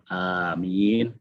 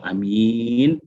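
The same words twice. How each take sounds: First: The first vowel is drawn out long. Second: The first vowel is kept short. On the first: A plea asking God to grant the prayer. "sama-sama panjang ya, maksudnya A-nya panjang, min-nya juga panjang" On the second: A person who is trustworthy. "min yang panjang"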